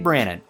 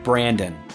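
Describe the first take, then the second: First: The name is said without a d sound. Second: The name is said with a d sound. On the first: The speaker calls it right. "There's absolutely no D in this name, making it Brandon" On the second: The speaker calls it wrong. "not Brandon"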